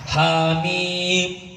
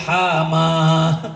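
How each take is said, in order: First: The letter names are read as hamim. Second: The letters are run together as hama. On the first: The speaker calls it right. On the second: The speaker calls it wrong.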